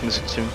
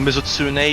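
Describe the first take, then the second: First: The final E is left silent. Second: The final E is pronounced clearly. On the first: The speaker calls it wrong. "not Mizutsune" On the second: The speaker calls it right. "you should pronounce the E at the end"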